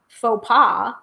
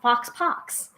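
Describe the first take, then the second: First: The final consonants are silent. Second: The final consonants are pronounced as x. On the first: The speaker calls it right. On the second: The speaker calls it wrong.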